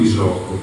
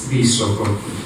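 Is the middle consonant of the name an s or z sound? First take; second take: z; s. First: The middle consonant is a voiced z sound. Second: The middle consonant is a voiceless s sound. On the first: The speaker calls it wrong. "non Visoko, come sento dire spesso" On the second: The speaker calls it right. "la S, questa si pronuncia S"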